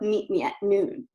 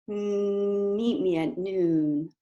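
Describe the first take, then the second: First: The voice sounds strained and tight in the throat. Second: The voice sounds smooth and focused forward.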